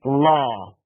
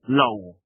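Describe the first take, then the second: First: The vowel is an open 'aw' sound. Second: The vowel is a closed 'oh' sound. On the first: The speaker calls it right. "It's law" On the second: The speaker calls it wrong. "We Polish very often say both these words the same"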